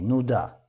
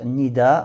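First: The first vowel is a 'u' sound. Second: The first vowel is an 'i' sound. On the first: "а можно с даммой" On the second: "Можно с касрой"

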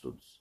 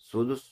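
First: No vowel follows the d sound. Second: A u vowel follows the d sound. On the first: "с сукуном второй буквы" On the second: "с даммой второй буквы"

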